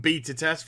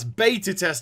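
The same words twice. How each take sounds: First: It is said with an English accent. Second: It is said with an American accent.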